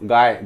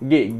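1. स्वर 'eye' सारखा आहे. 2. स्वर 'ay' सारखा आहे. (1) "गाय आहे का हा? नाही" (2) "हा काय आहे गे"

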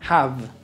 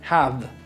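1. El sonido final está entre F y V. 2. El sonido final está entre F y V.

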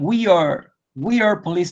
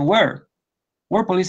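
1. We y are se pronuncian como dos palabras separadas. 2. We y are se unen en una sola sílaba. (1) "no van a decir we are police, no" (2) "dicen we're police officer"

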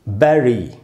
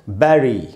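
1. पहला स्वर 'eh' जैसा लगता है। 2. पहला स्वर 'eh' जैसा लगता है।

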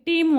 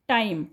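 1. स्वर 'ee' सारखा वाटतो. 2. स्वर 'eye' सारखा वाटतो. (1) "मी टीम वाचला" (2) "आई आहे उच्चार"

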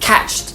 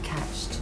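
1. เสียง t ท้ายคำ catched ถูกปล่อยออกเต็มที่และหนัก 2. เสียง t ท้ายคำ catched ถูกปล่อยออกเบาและนุ่ม (1) "ถ้าแบบอยากแบบเต็มเหนียว" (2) "หรือถ้าแบบเบาๆแบบพอดี"

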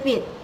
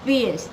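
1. คำว่า fish ลงท้ายด้วยเสียงหยุดปิดกะทันหัน 2. คำว่า fish ลงท้ายด้วยเสียง sh ที่ฟ่อ (1) "ไม่ใช่ ... แล้วก็จบ" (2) "ให้มีเสียง sh อยู่"

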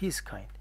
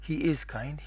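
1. الفعل مختصر ومُلتصق بالضمير. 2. يُنطق الفعل كاملاً ككلمة مستقلة.

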